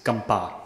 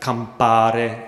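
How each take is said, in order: First: The word begins with a G sound. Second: The word begins with a K sound. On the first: The speaker calls it right. "would be more like a g. it's campa" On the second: The speaker calls it wrong. "So it's not campare"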